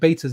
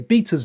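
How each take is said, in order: First: The word is said with an American pronunciation. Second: The word is said with a British pronunciation. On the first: "speaking to a lot of American people and doing a channel, I've started calling it betas" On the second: "I should say betas, man, the English way"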